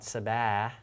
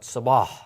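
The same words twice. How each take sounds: First: The s sound is plain and light. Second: The s sound is deep and hard. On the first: The speaker calls it wrong. "not sabah" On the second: The speaker calls it right. "but sabah"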